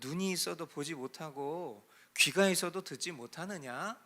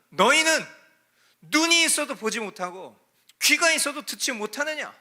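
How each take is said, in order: First: It is said softly and gently, with a sigh. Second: It is said boldly and sharply, with force. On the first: The speaker is being kind and merciful. The speaker calls it wrong. "인자와 자비한 그런 모습 속에서" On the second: The speaker is rebuking ignorant hearers. The speaker calls it right. "담대하셨을 거예요"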